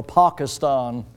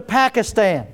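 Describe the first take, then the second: First: "Pakistan" with broad ah vowels, PAHK-uh-stahn; slow, lower "Pakistan" with both a's as "ah"; corrected pronunciation. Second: "Pakistan" with flat short a's, as in "pack" and "stan"; Southern-style "Pakistan", both a's as in "cat"; Southern pronunciation. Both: Shown as a demonstration. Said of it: "as I was corrected one time".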